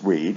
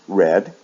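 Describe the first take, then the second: First: The vowel is a long E sound. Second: The vowel is a short E sound. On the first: It is the present base form. "in the base form it's read" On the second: It is the past tense. "in the past read"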